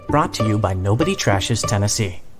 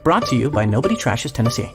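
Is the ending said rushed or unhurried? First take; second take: unhurried; rushed. First: The ending is said in an unhurried way. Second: The ending is said in a rushed way.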